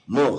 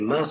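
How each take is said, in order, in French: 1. Le mot a une voyelle 'o'. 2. Le mot a une voyelle 'a'. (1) "c'est en prononciation sfarade"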